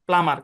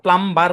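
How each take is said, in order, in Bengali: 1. m-এর পরে কোনো b ধ্বনি শোনা যায় না। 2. m-এর পরে b ধ্বনি শোনা যায়।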